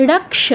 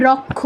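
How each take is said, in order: First: রক্ষ said rak-sha, half k and full sha; Sanskrit ksha demo. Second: রক্ষ said rok-kho, doubled k with kh; everyday Bengali pronunciation. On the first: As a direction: say রক্ষ without any kh, as raksha. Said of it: "আমরা খ বলতে পারবো না". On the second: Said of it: "এরকম বলি". (রক্ষ বাংলা উচ্চারণে, রোক্খো) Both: Shown as a demonstration.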